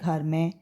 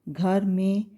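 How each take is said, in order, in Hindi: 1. में का स्वर 'ai' जैसा सुनाई देता है। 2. में का स्वर 'e' जैसा सुनाई देता है। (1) "लेकिन बोलने में हम क्या बोल देते हैं" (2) "मान लीजिए हम इस तरह से पढ़ते हैं"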